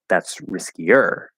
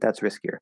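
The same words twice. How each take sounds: First: The word riskier gets strong extra emphasis. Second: The word riskier has no special emphasis. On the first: It is really, really risky. "I just want to really emphasize" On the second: It is simply riskier. "That's just a normal way to say it with no special emphasis"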